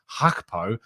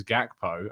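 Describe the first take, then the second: First: "Hakpo" starting with an H sound, no G; H instead of G. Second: "Gakpo" starting with a hard G sound; G pronounced. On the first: Host showing viewers the common mispronunciation, "Hakpo" with an H for G. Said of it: "a lot of people pronouncing it just". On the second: Host passing on the correct name to viewers, "Gakpo" with a hard G. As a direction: say "Gakpo" with the initial G clearly sounded. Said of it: "you do actually pronounce the G". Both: Shown as a demonstration.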